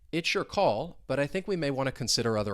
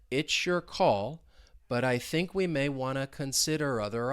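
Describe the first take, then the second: First: The sentence is spoken at a normal speed. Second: The sentence is spoken at a slow speed. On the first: "Let's say it at more of a normal speed" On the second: "let's say it slowly together"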